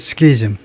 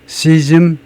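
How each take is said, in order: First: The word begins with an sk sound. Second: The word begins with a plain s sound. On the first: "스키즘 해도 되고" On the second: "시즘 해도 되고"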